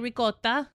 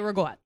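First: It is said the Italian way, ricotta. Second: It is said the New Jersey way, rigot.

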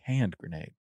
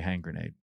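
First: The first word ends in a d sound. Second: The first word ends in an ng sound. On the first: The speaker calls it right. "Say hand grenade" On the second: The speaker calls it wrong. "You don't say hang grenade"

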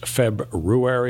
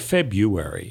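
First: The first r sound is pronounced. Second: The first r sound is dropped. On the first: The speaker calls it right. "the traditionally accepted and correct pronunciation of the month" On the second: The speaker calls it wrong. "Some people say February, Even though last I checked, there's an R"

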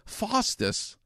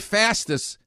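First: It is said imitating the narrator's accent. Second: It is said in the speaker's own everyday accent. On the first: The speaker calls it right. "But when you say fastest, oh, it's like another word" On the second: The speaker calls it wrong. "When I say fastest, it don't sound so good"

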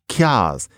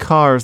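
First: It starts with a ky sound and drops the r. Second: It starts with plain k and keeps the r. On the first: "They were driving kias" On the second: "People weren't driving cars"

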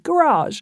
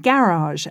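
First: It is said the American way. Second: It is said the British way.

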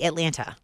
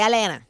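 First: It is said the Cincinnati way, with T. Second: It is said the local Atlanta way, without T.

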